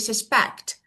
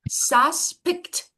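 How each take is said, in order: First: The stress is on the second syllable. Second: The stress is on the first syllable. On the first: The speaker calls it right. "Sus quickly, I pass it, I say suspect. So pect is the stress" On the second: The speaker calls it wrong. "I want to move this truth on the first one. I say suspect. No, it's not"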